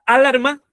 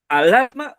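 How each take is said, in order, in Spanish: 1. La sílaba tónica es la primera. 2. La sílaba tónica es la de en medio. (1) "¿La A" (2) "la L"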